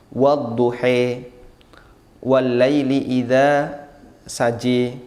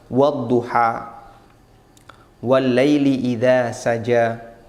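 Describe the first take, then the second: First: The final vowels are tilted toward an e. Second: The final vowels are a plain open a. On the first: "membaca dengan imalah, dibaca agak miring" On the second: "ini qiraah hafaz"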